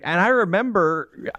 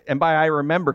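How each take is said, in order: First: "And I remember" said slowly, leaning on "I"; drawn-out remember. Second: Said in the usual way. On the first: Shown as a demonstration. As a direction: stretch out "I remember" like an old tale. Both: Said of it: "'cause that made it sound like it was a thousand years ago".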